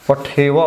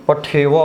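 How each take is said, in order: The two takes are said the same way.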